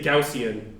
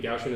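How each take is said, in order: First: Gaussian said slowly in three syllables, GOW-see-an. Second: Gaussian squashed into two syllables, GOW-shun. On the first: Professor showing students the proper way: three-syllable Gaussian. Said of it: "That's the right way to say it". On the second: Professor demonstrating his own wrong way: two-syllable Gaussian. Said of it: "don't say Gaussian like me". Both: Shown as a demonstration.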